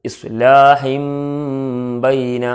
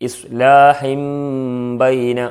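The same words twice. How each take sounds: No difference in how they are said.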